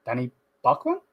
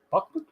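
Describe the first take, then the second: First: Said in the usual way. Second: High, puzzled echo of the name. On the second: Real, not acted. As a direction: squeak it out in disbelief.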